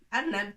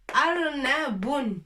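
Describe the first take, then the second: First: The word ends on a bare 'b' sound. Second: The word ends with an added 'un' sound. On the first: "pour la langue argot, on dit toujours Arnab" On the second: "Tanwin, bun. Arnabun"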